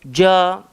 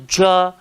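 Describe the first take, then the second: No difference in how they are said.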